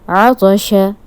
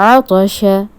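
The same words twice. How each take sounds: Both takes have the same delivery.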